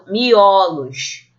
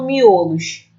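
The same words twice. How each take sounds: First: The stressed o is an open vowel. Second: The stressed o is a closed vowel. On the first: The speaker calls it right. "eu falo miolos. Então, o o se torna o aberto" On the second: The speaker calls it wrong. "eu não falo miolos"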